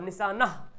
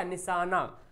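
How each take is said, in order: First: निशाना as "nishaanah", h breathed; spelling pronunciation. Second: निशाना ending in an open long aa; usual spoken form. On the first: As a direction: end निशाना on an audible h. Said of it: "निशाना लिखा हुआ". (निशाना को "निशानह" पढ़ें) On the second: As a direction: leave the h silent in निशाना. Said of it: "लेकिन पढ़ते क्या?". (निशाना का अंत अलिफ जैसा) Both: Shown as a demonstration.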